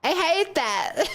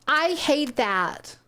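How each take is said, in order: First: "I hate that" drawn out and higher, less articulated; slow, higher "I hate that"; unclear first take. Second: "I hate that" very slow, each word separate; deliberate, careful "I hate that"; clearly enunciated. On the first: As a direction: say "I hate that" stretched, words running together. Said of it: "Sorry, open away, understand". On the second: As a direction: enunciate every part of "I hate that". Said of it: "making extra sure to enunciate". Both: Shown as a demonstration.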